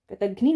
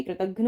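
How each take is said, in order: First: कृतघ्नि ending in a long "ee"; wrong final vowel. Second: कृतघ्न ending in "-ghna", no "ee"; correct short ending. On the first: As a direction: say कृतघ्नि with "-ghnee" at the end. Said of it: "कृतघ्नि ना होके कृतघ्न होता है". (कृतघ्नि के अंत में ई की ध्वनि) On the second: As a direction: say कृतघ्न without a final i vowel. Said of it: "कृतघ्न होता है". (कृतघ्न के अंत में ई नहीं) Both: Shown as a demonstration.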